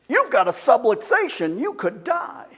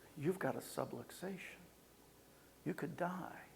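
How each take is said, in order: First: It is said fast and excitedly, sounding alarming. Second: It is said slower and calmer, with changed pacing. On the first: The listener is scared and shut out. The speaker calls it wrong. "they're excited about me dying" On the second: The listener wants to learn more. The speaker calls it right. "they changed the pacing, the tone"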